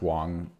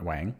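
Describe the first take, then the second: First: The name has an 'o' vowel sound. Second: The name has an 'a' vowel sound. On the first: The speaker calls it right. "I think it's pronounced Wong" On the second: The speaker calls it wrong. "not Wang"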